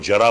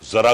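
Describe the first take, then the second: First: The word begins with a j sound. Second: The word begins with a z sound. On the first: The speaker calls it wrong. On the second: The speaker calls it right.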